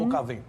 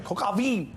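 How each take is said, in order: First: A light mock French accent on "Coq au vin". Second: French accent. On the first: Weatherman hamming up French for co-hosts, light French accent. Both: Shown as a demonstration. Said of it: "Is that your French accent?".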